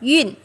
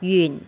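First: The pitch falls sharply from high to low. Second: The pitch dips low and then rises. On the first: "thanh tư ta đọc" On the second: "Thanh ba ta đọc"

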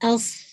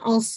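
First: The s sound is heavy and full. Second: The s sound is light and thin. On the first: The speaker calls it right. "स्वाद को हैवी रखना है" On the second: The speaker calls it wrong. "अस नहीं"

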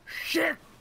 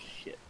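First: It is said forcefully in a Japanese accent. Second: It is said in a plain English accent. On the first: "He says shit, it's shit!" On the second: "I say shit"

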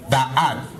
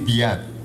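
First: 'The' is said with a short 'uh' vowel. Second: 'The' is said with a long 'ee' vowel. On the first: The speaker calls it wrong. "you don't say the ad" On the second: The speaker calls it right. "you say the ad"

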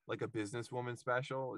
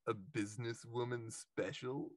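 First: It is said in an ordinary, plain voice. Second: It is said in a weird, put-on character voice. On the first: The line is not that funny. "if you just said like a businesswoman special, it's like not that funny" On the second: The line becomes much funnier. "but she's like a businesswoman special, like she just has this weird"

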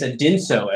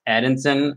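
First: The name ends with an O vowel. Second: The name ends with an N sound. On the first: The speaker calls it right. "But it's Adinso, as it turns out" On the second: The speaker calls it wrong. "every single time I pronounced it Adinson or something"

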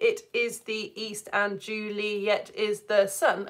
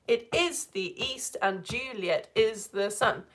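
First: It is read plainly, with Juliet in three syllables. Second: It is read in a beat, with Juliet in two syllables.

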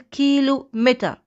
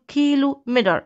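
First: British accent, with the final r silent. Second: American accent, with the final r pronounced. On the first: "لو بتكلم بالبريطاني" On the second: "لو بتكلم بالأمريكان"

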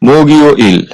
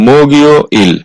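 Both takes have the same delivery.

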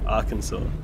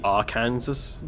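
First: The ending does not sound like Kansas. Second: The ending sounds like the word Kansas. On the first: The speaker calls it right. "but no, Arkansas" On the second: The speaker calls it wrong. "You'd think it'd just be Arkansas"

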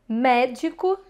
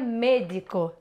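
First: The first vowel is an open e. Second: The first vowel is a closed e. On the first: This is the Portuguese way. "Português" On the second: This is the Spanish way. "Como é que no espanhol você falaria?"

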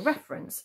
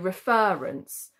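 First: The stress falls on the first syllable. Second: The stress falls on the second syllable. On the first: The speaker calls it right. "we say reference. So the stress isn't on that R" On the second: The speaker calls it wrong. "we don't say reference"

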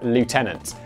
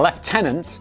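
First: It is said the American way. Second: It is said the British way.

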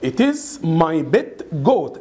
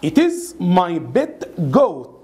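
Both takes have the same delivery.

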